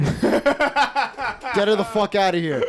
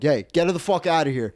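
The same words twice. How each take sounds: First: High, drawn-out mock yell; hammed-up outraged bellow; mock furious shout. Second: Firm, slightly raised order; retold bouncer's demand; mock angry order. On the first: Doorman on a power trip demands she leave, mock furious shout. Repeats the ejection order, far higher. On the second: Doorman orders a drunk woman out of the club, mock angry order.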